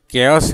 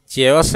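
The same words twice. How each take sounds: First: केयस with a hard K; alternative pronunciation. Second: चेयस with a 'ch' as in chair; wrong pronunciation. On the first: Teacher offering learners a second option, hard-K pronunciation. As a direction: say केयस, kay-us, starting with k. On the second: Teacher offering the wrong option to learners, mispronounced. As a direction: say चेयस, chay-us. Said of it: "उसको गलत से लोग बोलते हैं". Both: Shown as a demonstration.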